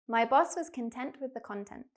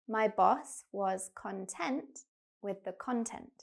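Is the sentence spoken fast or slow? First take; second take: fast; slow. First: The sentence is spoken very quickly. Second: The sentence is spoken slowly. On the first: "I'm going to say the sentence really quickly" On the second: "one more time, but slower"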